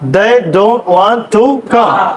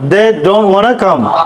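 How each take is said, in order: First: Want to is said as two full words. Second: Want to is run together as wanna. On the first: "they don't want to" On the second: "মানে wanna"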